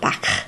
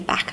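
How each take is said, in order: First: It is said in a Liverpool accent. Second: It is said in a Lancashire accent. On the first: The speaker calls it wrong. "not back" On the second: The speaker calls it right. "I would always say back"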